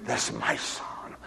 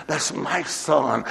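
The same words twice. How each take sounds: First: Slow, breathless whisper on That's. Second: Said in the usual way. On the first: Acted. Preacher claiming her son, whispered slowly. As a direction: hush it, like a secret vow.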